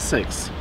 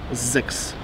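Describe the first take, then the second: First: The word begins with a voiceless s sound. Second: The word begins with a voiced z sound. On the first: The speaker calls it wrong. "wszyscy się spodziewają słowa seks" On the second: The speaker calls it right. "to się czyta zeks"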